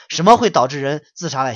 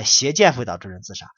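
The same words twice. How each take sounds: First: 什么 asked loud, falling at the end; rhetorical question. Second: 邪见 hit hard, then settle down; stressed answer. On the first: Preacher tossing the question to his listeners, louder. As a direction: put the question to the listeners, leaning on 什么. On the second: Preacher answering his own question, stressing 邪见. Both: Shown as a demonstration.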